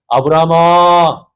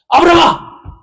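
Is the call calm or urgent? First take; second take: calm; urgent. First: It is called calmly and plainly. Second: It is called out loudly and urgently.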